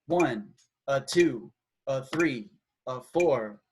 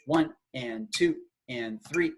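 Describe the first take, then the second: First: Long number, quick "a" before the next; dotted rhythm count. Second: Evenly spaced count with "and" midway; steady, square eighth-note feel; straight rhythm count. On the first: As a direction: count with a lopsided long-short lilt. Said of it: "and it would be". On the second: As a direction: count in even halves of the beat. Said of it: "just a straight". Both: Shown as a demonstration.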